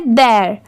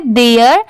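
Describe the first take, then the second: First: "देयर" as dair, one open syllable; one-syllable "their". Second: "देयर" as de-yar, in two syllables; two-syllable "there". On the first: Teacher contrasting their with there, one-syllable dair. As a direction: say "देयर" without the y glide, dair. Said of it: "और इसकी sound क्या आती है?". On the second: Teacher separating two confusable words, two-syllable de-yar. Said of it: "ये क्या है?". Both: Shown as a demonstration.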